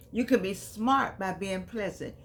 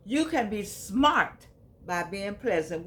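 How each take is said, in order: First: Can stressed, rest falls. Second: You stressed at the start, slow. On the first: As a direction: lean on the word can. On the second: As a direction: hit the word you first. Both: Shown as a demonstration.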